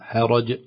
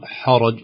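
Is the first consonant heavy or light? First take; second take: light; heavy. First: The first consonant sounds light and thin. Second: The first consonant sounds heavy and thick. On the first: The speaker calls it right. "نقول حاء حرج لا تتأثر بالراء المفخمة بعدها" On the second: The speaker calls it wrong. "خوفا نقول حرج"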